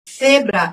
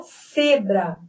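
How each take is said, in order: First: "Cebra" starting with th; tongue between the teeth to open "Cebra"; Madrid ceceo. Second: "cebra" slow, opening on an s sound; alternative pronunciation. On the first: Teacher showing Madrid's way, initial th sound. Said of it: "eu tenho ceceio". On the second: Teacher offering the other regional way, slow initial s. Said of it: "O cebra". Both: Shown as a demonstration.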